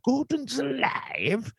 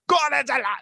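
First: It is said as an incredulous question. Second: It is shouted in a big loud voice.

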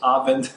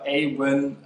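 First: The name is pronounced the German way. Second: The name is pronounced the English way.

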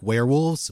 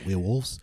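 First: It is said in a plain, neutral accent. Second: It is said in a New Zealand accent.

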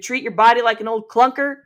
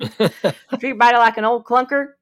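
First: It is said in the speaker's usual accent. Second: It is said in a Southern American accent.

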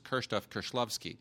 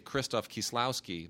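First: The name is pronounced the native Polish way. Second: The name is pronounced the anglicized way. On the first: Most listeners would not recognize the name. "I can never actually say to somebody" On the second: Most listeners recognize the name. "But if I say Krzysztof Kieślowski, they understand that"

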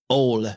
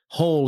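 First: The word begins without an h sound. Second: The word begins with a clear h sound.

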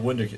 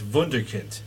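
First: The word begins with a W sound. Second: The word begins with a V sound. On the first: "we call it Wunderkind" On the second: "If you're pronouncing it the German way, it's got the V instead of the W"

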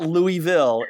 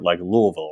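First: The name is said fully, with clear syllables. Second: The name is swallowed, further back in the mouth. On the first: The speaker calls it wrong. "It's not Louisville" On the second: The speaker calls it right. "It's a little more back of the tongue, sort of Louisville"

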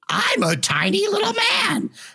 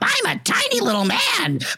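First: The voice sits at the back of the throat. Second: The voice sits forward, not in the throat.

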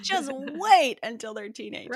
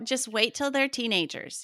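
First: It is said in a cheerful, upbeat tone. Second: It is said in a gloomy, warning tone. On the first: Teenagers are something to look forward to. The speaker calls it right. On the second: Teenagers will make life harder. The speaker calls it wrong.

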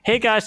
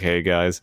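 First: It is said in a high voice. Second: It is said in a deep voice.

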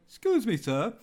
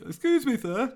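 First: It is said in his normal voice. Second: It is said in a put-on voice.

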